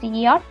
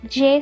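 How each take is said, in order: First: The letter starts with a ya sound. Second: The letter starts with an English J sound. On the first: The speaker calls it right. "it is J, Ya sound" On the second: The speaker calls it wrong. "doesn't have a J sound"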